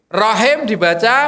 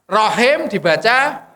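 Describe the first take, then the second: Both takes have the same delivery.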